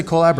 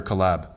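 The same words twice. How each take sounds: First: "collab" said as COH-lab; long-O collab. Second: "collab" said as cuh-LAB; short-vowel collab. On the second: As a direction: reduce the first vowel of "collab" to uh. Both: Shown as a demonstration. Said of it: "Do you say collab or collab".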